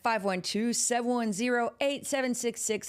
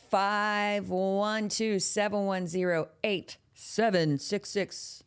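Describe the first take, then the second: First: Said in the usual way. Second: Each digit spaced out slowly for callers to note; slow dictation. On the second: Shown as a demonstration. Host slowly dictates the hotline number to viewers. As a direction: read the digits slowly so they can write them down. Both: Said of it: "repeats the number slowly".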